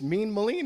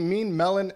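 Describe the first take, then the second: First: The surname rhymes with the word mean. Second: The surname sounds like the word melon. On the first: The speaker calls it right. "It rhymes" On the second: The speaker calls it wrong. "mispronounced my name"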